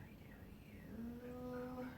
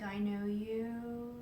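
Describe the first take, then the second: First: Slow, breathless whisper of recognition; awed whisper. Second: Drawn-out, spoken aloud; slow, voiced recognition. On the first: Retold or imitated. Recognizing the figure at her bedside, in a slow whisper. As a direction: hush each word out slowly like a secret. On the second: Repeating her recognition to the figure, slow and voiced. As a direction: say it slowly at normal volume, each word weighted.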